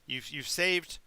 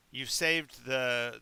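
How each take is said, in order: First: Said in the usual way. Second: Saved drawn out slowly and stressed. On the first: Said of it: "repeats with stretched stress". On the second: Acted. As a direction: lean hard on saved. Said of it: "slow repeat stressing saved".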